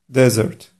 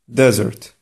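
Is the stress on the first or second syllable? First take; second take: first; first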